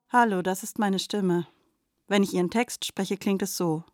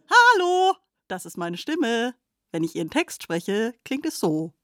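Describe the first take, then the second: First: It is said in a sad tone. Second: It is said in a happy tone.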